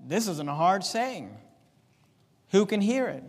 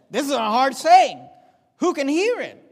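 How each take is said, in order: First: Said in the usual way. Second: Higher and louder, pressing the hard saying; emphatic repeat. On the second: Shown as a demonstration. Preacher repeating the disciples' complaint to the church, emphatic and loud. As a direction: hit the complaint hard the second time.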